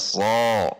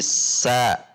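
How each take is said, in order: First: The syllable sounds heavy and thick, like so. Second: The syllable sounds light and thin, like sa. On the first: The speaker calls it wrong. "tidak dibaca so" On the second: The speaker calls it right. "tapi sa"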